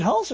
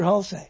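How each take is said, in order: First: "Hulse" as one syllable; first pronunciation option. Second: "Hulse" in two syllables, HUL-say; second pronunciation option. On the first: Host checks an actor's surname, "Hulse" as one syllable. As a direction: say "Hulse" short, with no vowel at the end. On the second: Host checks an actor's surname, "Hulse" said as HUL-say. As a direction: add a final "ay" sound to "Hulse". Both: Shown as a demonstration. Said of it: "Is it Hulse or Hulse?".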